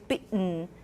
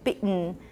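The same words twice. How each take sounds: The two takes are said the same way.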